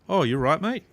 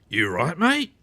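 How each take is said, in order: First: It sounds concerned and caring. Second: It sounds aggressive and confrontational.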